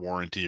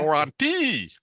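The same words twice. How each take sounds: First: The word is pronounced in the ordinary way. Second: The word is pronounced in an odd, mangled way.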